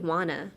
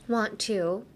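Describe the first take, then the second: First: The words are reduced and blended into wanna. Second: Both words are said fully, want and to. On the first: "I would say wanna" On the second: "Want to もいいんですけど"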